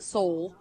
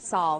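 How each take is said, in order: First: The vowel sounds like 'oh'. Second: The vowel sounds like 'aw'. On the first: The speaker calls it wrong. "not Soul" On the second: The speaker calls it right. "I try to say it right"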